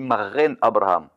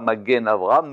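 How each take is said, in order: First: The middle consonant is a throaty r sound. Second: The middle consonant is a hard g sound. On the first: The speaker calls it right. "nous on dit marren Abraham" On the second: The speaker calls it wrong. "on dit pas magen Abraham"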